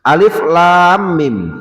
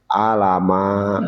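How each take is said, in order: First: Each letter is read by its full name. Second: The letters are read as short syllables together. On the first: The speaker calls it right. "Dibaca dengan nama nama asli dari hurufnya" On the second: The speaker calls it wrong. "anak-anak sekarang gak salah baca kadang. Alama katanya"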